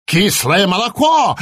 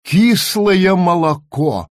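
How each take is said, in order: First: Raven crying out in mock horror, higher; lightly voiced raven recoiling in horror; horrified croak. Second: Said in the usual way. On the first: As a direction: squawk it out aghast. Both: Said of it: "в ужасе каркнул Абрахас".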